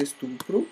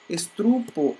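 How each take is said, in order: First: "estupro" with the R in the last syllable; correct estupro. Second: "Estrupo" with the R moved after the T; mispronounced estupro. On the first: Teacher giving the right form, estupro ending in "pro". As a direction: say es-tu-pro, R after the P. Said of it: "ao invés de". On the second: Teacher showing a common error, Estrupo with misplaced R. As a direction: say "Estrupo", R in the middle syllable. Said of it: "as pessoas pronunciam errado". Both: Shown as a demonstration.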